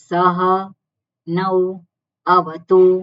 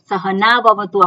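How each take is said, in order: First: Each word is said separately with breaks. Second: The words are run together without breaks. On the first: Each word is recited on its own. "વચ્ચે વચ્ચે" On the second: This is the continuous recitation as written. "આપણે બોલીએ છીએ"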